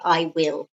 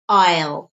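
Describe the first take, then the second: First: It is said as two full separate words. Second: It is said as one quick contracted sound. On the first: "in speech we don't often say I will" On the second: "It's a very quick sound"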